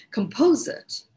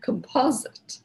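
First: Composite said kum-POH-zit with Indian accent. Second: Composite said KUM-pah-zit with a short ah; corrected pronunciation. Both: Shown as a demonstration. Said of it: "It's my Indian accent".

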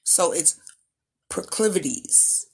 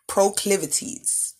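First: Proclivities said carefully, every syllable clear; careful enunciation. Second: Proclivities drawn out slowly, syllable by syllable; slow enunciation. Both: Shown as a demonstration. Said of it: "Enunciation is important".

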